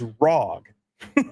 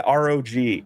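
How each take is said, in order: First: It is said as one single word. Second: It is spelled out letter by letter. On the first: The speaker calls it right. "Everybody says the word" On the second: The speaker calls it wrong. "You will never get me to say R O G"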